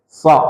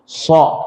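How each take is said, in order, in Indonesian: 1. Bibir tetap netral, pangkal lidah terangkat. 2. Bibir membulat saat mengucapkannya. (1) "Cuman lidahnya kita angkat belakangnya, jadi kayak gini" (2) "tidak perlu kita membaca so itu so"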